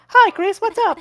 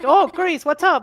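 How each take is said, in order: First: It is said in Noelle's put-on voice. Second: It is said in his normal voice.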